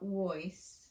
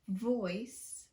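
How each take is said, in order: First: The word starts with a W-like sound. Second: The word starts with a clear V sound. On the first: The speaker calls it wrong. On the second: The speaker calls it right.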